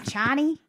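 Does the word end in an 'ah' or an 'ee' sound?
ee. The word ends in an 'ee' sound. "I've heard old timers say Cheney or like Chiny"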